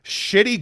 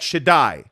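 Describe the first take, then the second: First: The name sounds like the word 'shitty'. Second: The name sounds like 'shuh-DYE', ending in 'eye'.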